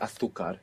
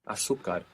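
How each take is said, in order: First: It is said as in most of Spain. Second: It is said without the pronunciation of Spain.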